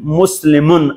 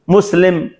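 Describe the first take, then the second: First: The word ends with an -un sound. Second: The word ends on m, without -un. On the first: "تنوین موجود است" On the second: "تنوین را نمیخوانیم"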